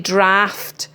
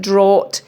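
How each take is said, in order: First: The vowel sounds like the one in aft. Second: The vowel sounds like the one in ought. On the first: The speaker calls it right. "It's actually draft" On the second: The speaker calls it wrong. "D R with ought, with A U G H T isn't draught"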